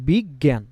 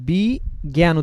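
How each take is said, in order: First: The word is run together as one unit. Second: The word is split after the first syllable. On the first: The speaker calls it right. "আমরা কি উচ্চারণ করি একটু দেখেন তো" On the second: The speaker calls it wrong. "এখানে তো আমরা বি জ্ঞান উচ্চারণ করি না"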